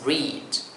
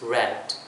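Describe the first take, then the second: First: The vowel is long, like 'reed'. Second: The vowel is short, like 'red'. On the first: The reading happens now or habitually. "in the present tense form, I would say, so it's pronounced E sound" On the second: The reading happened in the past. "past simple form... it becomes E sound"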